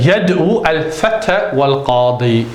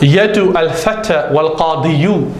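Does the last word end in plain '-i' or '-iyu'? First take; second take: -i; -iyu. First: The last word ends with a plain '-i' sound. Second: The last word ends with a full '-iyu' ending. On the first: The speaker calls it right. "You say" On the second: The speaker calls it wrong. "you don't say"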